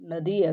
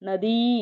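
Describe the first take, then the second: First: The final vowel is kept short. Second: The final vowel is held long. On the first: This is the Kannada-derived form of the word. "ಹ್ರಸ್ವ ಸ್ವರ ಆಗುತ್ತೆ" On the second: This is the Sanskrit form of the word. "ದೀರ್ಘ ಸ್ವರ ಇರೋದು"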